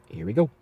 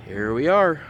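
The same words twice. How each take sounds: First: Said in the usual way. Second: Higher, louder groaning zombie. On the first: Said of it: "my zombie impression". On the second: Acted. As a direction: moan it like the undead. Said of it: "You guys like my zombie impression?".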